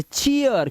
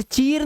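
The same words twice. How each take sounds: First: चीयर split as chee-yar; correct ee-a glide. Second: चीर with one straight ee; wrong long vowel. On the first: Teacher correcting it because R comes last, चीयर as chee-yar. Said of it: "इसे चीयर". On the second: Teacher warning against a misreading, चीर with a plain long ee. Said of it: "अब इसे चीर नहीं पढ़ना है". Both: Shown as a demonstration.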